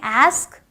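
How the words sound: It has the American 'a' vowel.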